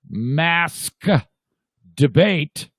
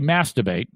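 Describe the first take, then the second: First: The two words are said carefully and separately. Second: The two words are blurred together into one. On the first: It sounds innocent. "when you say it that uh, carefully" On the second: It sounds like a rude word. "if you say masturbate, which is how they all say it"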